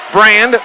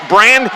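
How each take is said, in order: Both takes have the same delivery.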